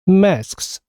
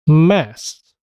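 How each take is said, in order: First: All three final consonants s, k, s are pronounced. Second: The k drops and two short s sounds follow. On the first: "이게 좀 전에 우리가 들었던 발음입니다" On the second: "그 사운드는 없어지고 스 사운드가 아주 짧게 연속해서 발음됩니다"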